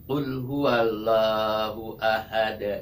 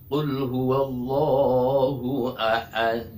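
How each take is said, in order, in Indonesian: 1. Huruf l pada Allah itu tipis dan ringan. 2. Huruf l pada Allah itu tebal dan berat. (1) "jangan sampai tipis" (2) "Allahnya lam jalalah itu tebal"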